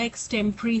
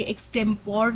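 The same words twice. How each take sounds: First: "एक्सटेम्परी" said as "eks-tem-pri", with a short "-pri" ending; teacher models "एक्सटेम्परी" the right way, with a short "-pri" ending; correct pronunciation. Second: "एक्सटेम्पोर" said ending in a full "por", as many people say it; teacher says "एक्सटेम्पोर" the common wrong way, ending in "por"; wrong Indian pronunciation. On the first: Teacher giving students the correct "एक्सटेम्परी", ending in "-pri". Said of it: "एक्सटेम्परी होता है". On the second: Teacher showing students the common wrong "एक्सटेम्पोर", ending in "por". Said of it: "ये एक्सटेम्पोर नहीं होता".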